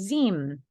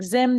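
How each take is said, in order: First: The vowel is a long i sound. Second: The vowel is a short i sound.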